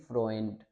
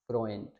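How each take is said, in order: First: The vowel is an oy sound. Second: The vowel is an oy sound.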